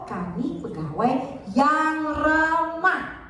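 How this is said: The stress falls on yang ramah. Being friendly is the key point. "artinya yang ramah"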